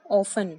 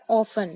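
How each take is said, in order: First: Often said "ऑफ़न", t silent; the right way: "often" with no t sound; correct pronunciation. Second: Often said with the t sounded, as "ऑफ़टन"; the common mistake, "often" with a clear t; wrong pronunciation. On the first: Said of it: "यहाँ हमारा टी silent है". (सही उच्चारण, often में t silent) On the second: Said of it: "काफी लोग इसे often कहते हैं, but ये सही नहीं है". (गलत उच्चारण, often में t बोलते हुए) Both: Shown as a demonstration.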